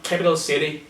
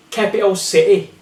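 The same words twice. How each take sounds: First: "capital city" with Ts tongued; sounded T. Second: "capital city" as "capi'o si'ee"; glottal T. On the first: Teacher showing what to avoid, "capital city" with Ts sounded. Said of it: "not capital city". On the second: Teacher showing the target, "capital city" with glottal stops. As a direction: swallow both Ts in "capital city". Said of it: "glottal T". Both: Shown as a demonstration.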